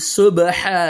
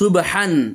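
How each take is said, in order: First: The word ends with a long vowel. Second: The word ends with an n sound. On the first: The reader stops at this word. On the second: The reading continues without stopping.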